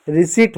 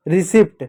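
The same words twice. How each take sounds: First: रिसीट with silent p; long ee straight into t in रिसीट; correct pronunciation. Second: रिसिप्ट with the p sounded; short i and "pt" ending in रिसिप्ट; wrong pronunciation. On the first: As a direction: say रिसीट as "ri-SEET". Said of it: "रिसीट होता है". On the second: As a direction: say रिसिप्ट as "ri-SIPT". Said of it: "गलत होता है". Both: Shown as a demonstration.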